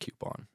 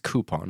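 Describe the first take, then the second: First: The first syllable is kyoo, with a y sound. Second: The first syllable is koo, without a y sound. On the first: The speaker calls it wrong. "It's not coupon. ... there's no Q in it" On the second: The speaker calls it right. "it's coupon"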